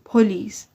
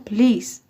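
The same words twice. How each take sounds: First: The stress is on the first syllable. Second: The stress is on the second syllable. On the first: The speaker calls it wrong. "پلیس نمیگن" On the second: The speaker calls it right. "اونا روی ل استرس میذارن"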